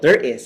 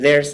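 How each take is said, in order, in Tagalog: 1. Ang dalawang salita ay binibigkas nang hiwalay. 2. Ang dalawang salita ay dumudulas at nagiging isa.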